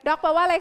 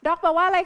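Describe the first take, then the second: No difference in how they are said.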